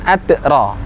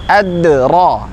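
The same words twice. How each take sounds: First: The d is held tight and choked off. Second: The d is released with a light natural bounce. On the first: The speaker calls it wrong. "bukan adra" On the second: The speaker calls it right. "Ad-dalnya mantul secara wajar"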